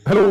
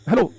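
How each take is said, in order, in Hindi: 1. यह शब्द बहुत ज़ोर से बोला गया है। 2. यह शब्द धीरे से बोला गया है। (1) "बहुत जोर से बोल रहा हूँ" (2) "कभी धीरे से बोल रहा हूँ"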